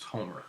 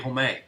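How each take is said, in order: First: It is said with a northern Louisiana accent. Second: It is said with a southern Louisiana accent. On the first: "upstairs in the north, Homer is pronounced" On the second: "if Homer was down south, that'd be"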